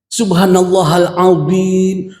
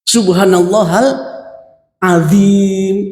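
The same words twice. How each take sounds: First: The z sound is emphatic, with rounded lips. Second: The z sound is plain, with spread lips. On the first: Glory be to God the Most Great. The speaker calls it right. "Maha suci Allah yang maha agung" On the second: The phrase has no proper meaning. The speaker calls it wrong. "Maha suci Allah yang nggak tahu"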